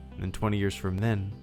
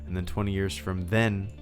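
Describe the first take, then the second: No difference in how they are said.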